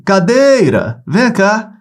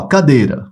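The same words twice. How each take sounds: First: High, drawn-out call on "Cadeira", holding "dei". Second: Said in the usual way. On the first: Shown as a demonstration. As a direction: call "Cadeira" over to you from afar. (chamando de longe, "Cadeira" com "dei" prolongado) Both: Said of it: "Aí você vai chamar por ele".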